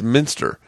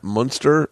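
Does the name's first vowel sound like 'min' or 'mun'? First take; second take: min; mun. First: The first syllable sounds like 'min'. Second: The first syllable sounds like 'mun'. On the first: The speaker calls it right. "and it's Minster" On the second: The speaker calls it wrong. "I've been saying Matt Munster"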